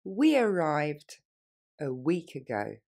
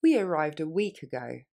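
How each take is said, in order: First: We arrived drawn out word by word; very slowly. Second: Quick natural speed; faster. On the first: Teacher modelling for students, very slow. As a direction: stretch it out for the learner. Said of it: "Plus lentement". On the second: Teacher modelling for students, quick natural. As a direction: run it together like a native. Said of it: "Et plus rapidement". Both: Shown as a demonstration.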